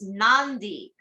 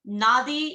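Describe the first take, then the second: First: The d is said with an n before it. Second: The d is said with no n before it.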